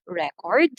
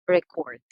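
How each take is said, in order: First: "record" as RE-cord, rising; noun stress. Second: "record" as re-CORD, falling; verb stress. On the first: Teacher sums up the two forms, noun "record" stressed on first syllable. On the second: Teacher sums up the two forms, verb "record" stressed on second syllable. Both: Shown as a demonstration. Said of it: "So for this second word".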